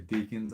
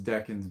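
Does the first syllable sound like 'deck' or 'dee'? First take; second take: dee; deck. First: The first syllable sounds like 'dee'. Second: The first syllable sounds like 'deck'. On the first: This is how other people say it. "people say deacons" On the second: This is the pronunciation the speaker believes correct. "I think the pronunciation is decans"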